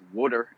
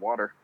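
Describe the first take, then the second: First: It is said with a Philadelphia accent. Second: It is said with a standard accent. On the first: "the one thing that Philly people say" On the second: "instead of"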